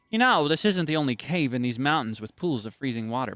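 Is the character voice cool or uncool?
uncool. The character voice sounds less cool.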